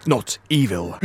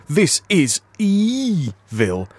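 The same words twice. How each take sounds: First: "evil" said quick and low; said quickly. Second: "evil" drawn out slowly as EE-vil. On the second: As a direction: stretch "evil" slowly, long first vowel. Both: Shown as a demonstration. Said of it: "like I told you listeners".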